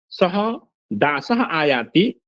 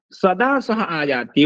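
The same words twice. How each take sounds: First: Slow "सः", a clear stop, then "दासः आयाति"; split by a pause. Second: "सदा" run together as one word, then "सः आयाति"; no break inside "सदा", slow and even; joined as सदा. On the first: ("सः" के बाद रुककर "दासः आयाति") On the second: ("सदा" को एक शब्द की तरह जोड़कर बोलें) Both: Shown as a demonstration. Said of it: "यति से अर्थभेद होता है".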